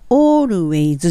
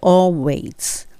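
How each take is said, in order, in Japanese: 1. 平らな日本語風のカタカナ音で言います。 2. 英語のlで言います。舌を歯の裏につけます。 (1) "always じゃなくて、これになると本当カタカナなんで" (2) "歯の裏にベロの先を当ててalways"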